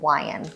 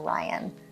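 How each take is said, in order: First: The first sound is a lip-rounded W. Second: The first sound is a tongue-back R. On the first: The speaker calls it wrong. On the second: The speaker calls it right.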